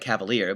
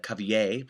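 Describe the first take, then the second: First: The name is read the English way, as spelled. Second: The name is said with a French pronunciation. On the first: The speaker calls it wrong. "it looks like" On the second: The speaker calls it right. "the more uh, proper French pronunciation"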